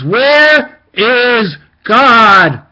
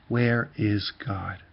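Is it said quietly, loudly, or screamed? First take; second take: screamed; quietly. First: It is screamed at full volume. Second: It is said at a normal, quiet volume.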